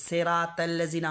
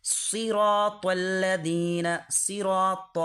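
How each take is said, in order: First: সেরাতাল্লাযিনা as "seraa-tellazina", thin s and t; wrong light reading of সেরাতাল্লাযিনা; common mispronunciation. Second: সিরাতাল্লাযিনা slow, as "seeraw-tawlladheena"; measured chant, emphatic letters in সিরাতাল্লাযিনা; correct recitation. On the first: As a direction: say সেরাতাল্লাযিনা all light, unrounded letters. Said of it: "আমরা বলি". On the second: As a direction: stretch সিরাতাল্লাযিনা with heavy s and rounded t. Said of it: "তাহলে কি বলতে হবে?". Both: Shown as a demonstration.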